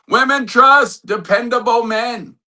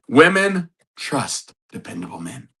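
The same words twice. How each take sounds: First: It is said loudly. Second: It is said at normal volume.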